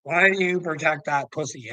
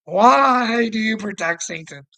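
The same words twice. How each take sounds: First: Said in the usual way. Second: Mock the viewer, half laughing, louder; louder laughing taunt. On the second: Real, not acted. Taunting the viewer who protects him, laughing and louder. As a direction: repeat the question higher and louder through a laugh.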